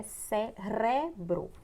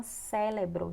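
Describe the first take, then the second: First: Cérebro slowly with the middle R sounded; correct pronunciation. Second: Cérebro with L for the first R; common mispronunciation. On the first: Teacher correcting the error, cérebro slow with a clear R. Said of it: "sendo que é cérebro". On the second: Teacher showing what many people say, cérebro mispronounced as "célebro". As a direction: say cérebro as "CÉ-le-bro". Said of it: "Muitas pessoas falam cérebro". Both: Shown as a demonstration.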